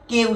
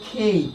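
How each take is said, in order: First: The k is said without a puff of air. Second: The k is said with a puff of air. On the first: The speaker calls it wrong. "আমরা কি উচ্চারণ করি" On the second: The speaker calls it right. "এর সঠিক উচ্চারণ"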